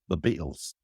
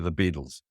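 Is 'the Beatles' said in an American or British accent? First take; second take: British; American. First: It is said in a British accent. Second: It is said in an American accent. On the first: This is how the band member says it. "He says" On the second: This is how the speaker's own people say it. "we say"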